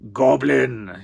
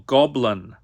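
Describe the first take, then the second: First: It is said in a rough, gruff voice. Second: It is said in an ordinary, plain voice. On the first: The speaker calls it right. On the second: The speaker calls it wrong.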